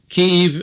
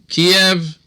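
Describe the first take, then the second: First: The name is said in its Ukrainian form. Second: The name is said in its Russian form. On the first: The speaker sides with Ukraine. "if you're pro-Ukrainian" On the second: The speaker sides with Russia. "if you're pro-Russian"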